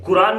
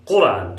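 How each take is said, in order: First: कुरान with a light Hindi k, the wrong way; plain k mispronunciation. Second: कुरान with a deep q from the back of the throat; heavy throat q. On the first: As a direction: say कुरान with a front k to show the mistake. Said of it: "कुरान नहीं बोलेंगे". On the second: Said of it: "थोड़ा भारी निकलता है". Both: Shown as a demonstration.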